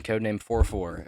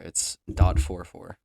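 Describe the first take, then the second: First: Said in the usual way. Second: "dot" slow and louder, set apart from "four four"; stress on dot. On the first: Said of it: "very important that you add the dot". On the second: Shown as a demonstration. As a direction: lean on "dot", then "four four" slowly. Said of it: "very important that you add the dot before".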